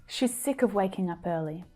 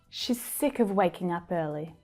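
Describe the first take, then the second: The two takes are said the same way.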